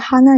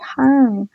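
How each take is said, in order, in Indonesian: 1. Kata itu diucapkan dalam bentuk lengkapnya. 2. Kata itu diucapkan dengan akhirannya dihilangkan. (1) "disingkat aja hana jadi han" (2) "disingkat aja hana jadi han"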